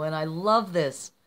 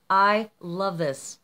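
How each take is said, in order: First: Said in the usual way. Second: "I love this" drawn out, word by word; slow, heartfelt emphasis. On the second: Real, not acted. Vlogger admiring a friend's painted card, slow heartfelt emphasis on "I love this". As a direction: stretch "I" and "love" slowly.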